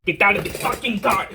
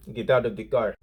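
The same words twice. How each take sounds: First: High, heated demand in a mock Arabian accent; put-on Arabian accent. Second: Put-on Arabian accent. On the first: Driver demands he get out, worked-up mock Arabian accent. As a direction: imitate an Arabian man losing it, pitch jumping up. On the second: Angry driver orders him out of the car, mock Arabian accent. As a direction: imitate an Arabian man's accent, held down. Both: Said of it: "I need to stop doing the accent".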